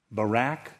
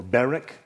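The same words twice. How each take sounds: First: Barak as buh-RACK, stress on second syllable; alternative pronunciation. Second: Barak as BEAR-ick, stress on first syllable; alternative pronunciation. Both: Shown as a demonstration. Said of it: "I don't know how you pronounce it".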